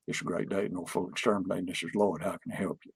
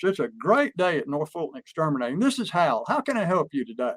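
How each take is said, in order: First: Low, soft, rushed monotone greeting; Lloyd's static voice. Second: Lively company phone answer with life in it; model phone greeting. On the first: Retold or imitated. Operations manager answers the phone in his static monotone. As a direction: mumble through the greeting low and fast, no lift. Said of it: "So he said". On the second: Shown as a demonstration. Boss shows staff how to answer the phone, upbeat. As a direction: show the team an upbeat greeting. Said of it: "I'll do it first".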